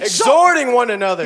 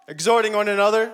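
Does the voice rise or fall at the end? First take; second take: fall; rise. First: It falls at the end like a statement. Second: It rises at the end like a question.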